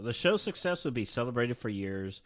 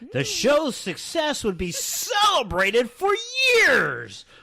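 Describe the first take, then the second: First: The line is read in a flat, bored tone. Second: The line is read in a lively, excited tone. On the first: The speaker calls it wrong. "You sound so bored while you're reading that" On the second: The speaker calls it right. "now I'm excited. So I'll reread the line"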